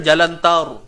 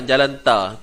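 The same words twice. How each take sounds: First: "tar" said thick and rounded, like "taur"; fuller, heavier "Jalan tar"; heavy tar. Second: "tar" said with a light thin r, no weight; flat everyday "Jalan tar" with a thin a. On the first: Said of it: "Kalau kita tebal kan". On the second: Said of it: "Itu nipis lah tu". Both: Shown as a demonstration.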